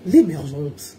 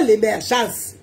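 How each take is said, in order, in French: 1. Il est prononcé d'une voix chic et élégante, un peu affectée. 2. Il est prononcé d'une voix simple et ordinaire. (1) "Vous prenez le ton, la voix, puis gestuelle, l'élégance" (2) "On ne dit pas l'émergence. C'est pas ça"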